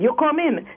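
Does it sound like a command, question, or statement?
command. It is said as a command.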